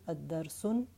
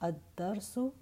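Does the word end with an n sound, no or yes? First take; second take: yes; no. First: The word ends with an added n sound. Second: The word ends in a plain vowel. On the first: The word is indefinite. The speaker calls it wrong. "it's not going to be ad-darsun" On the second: The word is definite. The speaker calls it right. "no tanween, definite word"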